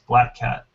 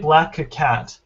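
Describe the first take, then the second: First: It is said in two syllables, no added vowel. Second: An extra vowel is added after the k sound. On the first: The speaker calls it right. "you want to say it in two syllables" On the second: The speaker calls it wrong. "then again you're introducing an extra syllable"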